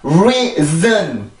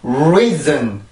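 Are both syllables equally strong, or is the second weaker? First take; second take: equally strong; second weaker. First: Both syllables are strong, with equal heavy beats. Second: The second syllable is weaker, with less air. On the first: The speaker calls it wrong. "이렇게 큰 리듬이 두 개가 생기니까" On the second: The speaker calls it right. "공기 조절을 이용해서 내가 그 작은 강세를 만들어 주는 거예요"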